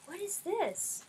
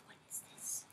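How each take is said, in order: First: Said in the usual way. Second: Murmuré pour soi, sans voix; whisper. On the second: Real, not acted. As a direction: chuchote la question, intriguée. Whispered to herself, then repeated.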